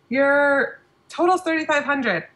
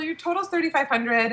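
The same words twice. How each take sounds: First: The price is stated in a hesitant tone. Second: The price is stated in a confident tone. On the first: The speaker is uneasy about asking for a large amount. The speaker calls it wrong. "she kind of cringed" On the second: The speaker is comfortable asking for a large amount. The speaker calls it right. "I kind of just said it with confidence"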